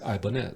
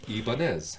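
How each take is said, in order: First: The name is said with an English pronunciation. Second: The name is said with a Spanish pronunciation. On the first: This is the commonly accepted pronunciation. The speaker calls it wrong. "it's accepted as how we pronounce it now" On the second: This is the original pronunciation. The speaker calls it right. "it should be Ibanez because it was a Spanish company"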